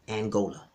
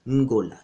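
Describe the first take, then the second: First: "Angola" with the English "an" vowel first; common mispronunciation. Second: "Ngola" starting on a hummed ng, no vowel; Kimbundu term. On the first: Quoting what viewers call the nation, mispronounced "Angola". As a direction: begin "Angola" with a full "an", then GO-la. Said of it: "you call it". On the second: Teaching the original Kimbundu word, "Ngola" with nasal start. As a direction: open "Ngola" straight on the nasal, ng-GO-la. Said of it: "the Kimbundu term Ngola". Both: Shown as a demonstration.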